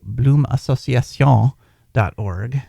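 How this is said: It is said with a French accent.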